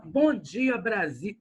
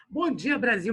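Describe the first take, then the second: First: Said in the usual way. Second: Lightly voiced upbeat vlogger greeting; blogger voice. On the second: Teacher plays a blogger for his online class, mild vlogger voice. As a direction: open like a livestream host, a hint of hype. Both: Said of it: "deixa eu incorporar o blogueiro".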